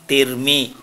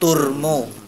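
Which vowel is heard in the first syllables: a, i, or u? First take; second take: i; u. First: The syllables are said with an i vowel. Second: The syllables are said with a u vowel. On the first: "Kalau dibaca kasroh" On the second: "Kalau dibaca domah"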